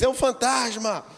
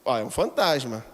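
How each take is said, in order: First: It is shouted in a desperate, frightened tone. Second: It is said in a calm, plain tone.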